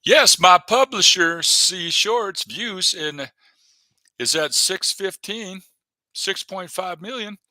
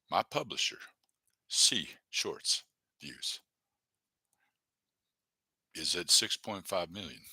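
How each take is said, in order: First: Loud, slow boast of his numbers; proud announcement. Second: Softer, slowing, trailing under his breath; quiet repeat. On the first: Streamer bragging to viewers about his publisher's views, loud and slow. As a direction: proclaim it like big news. Reading channel stats aloud proudly. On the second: Streamer repeating his view count to himself, quiet and trailing. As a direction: mutter it back to yourself. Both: Real, not acted.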